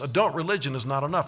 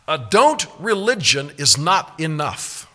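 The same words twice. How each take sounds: First: The sentence is spoken at a fast pace. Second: The sentence is spoken at a slow pace. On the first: "Let me say it faster" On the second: "I'll say it slowly"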